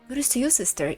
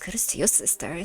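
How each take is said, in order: First: It is said in a plain normal voice. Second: It is said in a put-on evil lady voice.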